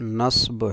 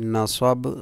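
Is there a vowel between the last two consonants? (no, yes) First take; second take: no; yes. First: The final two consonants come together without a vowel. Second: A vowel is inserted between the final two consonants. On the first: "सही लफ्ज़ नस्ब है" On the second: "Urdu में जब इनको बोला जाता है तो ... पहले को फतहा देकर"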